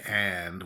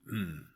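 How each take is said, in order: First: The word is said fully with its vowel. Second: The word is reduced to a short nasal sound. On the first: The speaker calls it wrong. "we never say and when we're talking" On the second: The speaker calls it right. "that's what we say"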